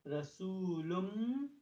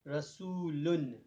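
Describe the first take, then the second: First: The word ends with an m sound. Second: The word ends with an n sound. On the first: "the meme sound" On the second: "usually the word Rasul with tanween would be read as Rasulun"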